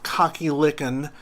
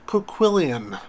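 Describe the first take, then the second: First: The name is said as two words, Cocky Licken. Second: The name is said as one smooth word, Coquillion. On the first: The speaker calls it wrong. "and not Cocky Licken, as Ian actually says" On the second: The speaker calls it right. "That's how you pronounce that awful, awful name"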